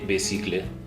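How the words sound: It is said with a German-style pronunciation. "German people would say be, bicicle"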